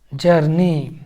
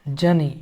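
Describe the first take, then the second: First: जर्नी said with a clear rolled r, "jur-nee", falling tune; journey with r. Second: जनी said with no r at all, "ja-nee"; journey, silent r. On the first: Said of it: "एक जनी भी पढ़ाता है और जर्नी भी पढ़ाता है". (जर्नी में र को साफ़ बोलें, "जर-नी") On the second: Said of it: "एक जनी भी पढ़ाता है". (जनी को बिना र के बोलें, "ज-नी") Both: Shown as a demonstration.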